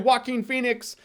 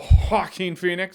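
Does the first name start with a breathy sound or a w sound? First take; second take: w sound; breathy. First: The first name starts with a plain w sound. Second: The first name starts with a rolled, breathy sound. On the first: "in which case people hear Walking Phoenix" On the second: "I either roll it and breathe the"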